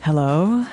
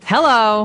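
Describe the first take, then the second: First: It is said gently and softly. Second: It is said strongly and forcefully.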